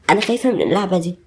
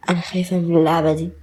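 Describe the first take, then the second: First: خايفة pressed hardest in the line; second take, weight moved to خايفة; stress on خايفة. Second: انا pressed hardest, rest falls away; first take, weight on انا; stress on انا. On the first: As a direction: lean on خايفة, the fear itself. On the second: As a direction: lean on انا, it's me who's scared. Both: Acted. Repeats her fear line twice.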